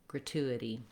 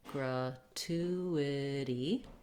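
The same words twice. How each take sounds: First: It is said smoothly at normal speed. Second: It is said slowly, syllable by syllable. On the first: "and then speed them back up" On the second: "break them down slowly, syllable by syllable"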